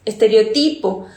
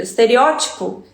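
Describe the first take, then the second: First: "estereotipo" stressed on the next-to-last syllable, estereo-TI-po; "estereotipo" as es-te-reo-TI-po, falling at the end. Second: "Estereótipo" stressed third from last, estere-Ó-tipo. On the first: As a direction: say "estereotipo" Spanish-style, with the weight on TI. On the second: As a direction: say "Estereótipo" Portuguese-style, with the weight on Ó. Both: Shown as a demonstration. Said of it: "diferente sílaba tônica".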